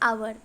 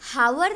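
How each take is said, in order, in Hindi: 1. यह शब्द सीधे एक स्वर ध्वनि से शुरू होता है। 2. इस शब्द की शुरुआत में एक सुनाई देने वाली h ध्वनि है। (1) "वो होगा आवर" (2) "वो हावर नहीं होगा"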